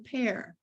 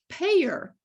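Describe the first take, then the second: First: The word is said as one syllable. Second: The word is said as two syllables. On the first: This is the pronunciation needed for reading. "the picture is a pear" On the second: This is the local dialect pronunciation. "But the teachers say payer"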